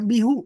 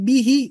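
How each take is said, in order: First: The word ends with an 'oo' vowel. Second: The word ends with an 'ee' vowel. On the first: The speaker calls it wrong. "bukan bihu" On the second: The speaker calls it right. "maka dibacanya jadi bihi"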